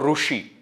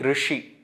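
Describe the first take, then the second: First: The r is followed by a u vowel. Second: The r has a vowel between r and ri. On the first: The speaker calls it wrong. "I am not saying ... Rushi" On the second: The speaker calls it right. "I am saying Rishi"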